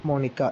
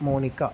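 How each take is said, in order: The two takes are said the same way.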